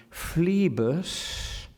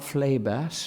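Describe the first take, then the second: First: PHLEBAS said slowly as "FLEE-bus"; long ee in phlebas, drawn right out; Eliot's pronunciation. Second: PHLEBAS said as "FLAY-bass"; ay in phlebas, full a at the end; rejected pronunciation. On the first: Lecturer shows Eliot's name, phlebas as flee-bus. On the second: Lecturer gives the wrong form, phlebas as flay-bass. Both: Shown as a demonstration. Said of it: "not phlebas".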